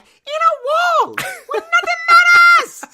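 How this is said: It is said in a high-pitched voice.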